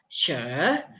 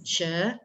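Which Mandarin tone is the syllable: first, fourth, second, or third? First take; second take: third; second. First: The syllable carries the third tone. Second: The syllable carries the second tone. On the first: "tone ketiga" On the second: "tone kedua"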